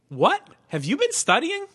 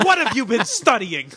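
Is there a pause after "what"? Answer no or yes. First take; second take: yes; no. First: There is a pause after "what". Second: It is said as one phrase.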